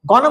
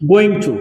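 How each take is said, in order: First: The two words are run together into one. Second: The two words are said separately and fully.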